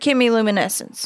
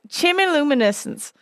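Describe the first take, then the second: First: The first syllable sounds like 'kem', as in chemistry. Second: The first syllable sounds like 'chim', as in chimney. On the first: The speaker calls it right. "I think I'm saying that right, because chemistry" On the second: The speaker calls it wrong. "a part of me really wants to call it chimmy"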